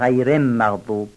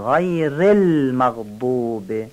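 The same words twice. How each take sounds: First: The l before maghdub sounds like an m. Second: The l before maghdub is clearly pronounced. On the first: The speaker calls it wrong. "بعضی هم لام المغضوب رو شاید میم بگن" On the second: The speaker calls it right. "اینجا لام رو با دقت بگید"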